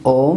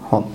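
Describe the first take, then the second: First: The word starts with a vowel, no H sound. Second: The word starts with an audible H sound. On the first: The speaker calls it wrong. "میگیم اوم" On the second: The speaker calls it right. "میگیم هوم"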